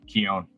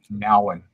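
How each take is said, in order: First: The name begins with a K sound. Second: The name begins with an N sound. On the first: The speaker calls it wrong. "not Keon" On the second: The speaker calls it right. "he pronounces it Nowan"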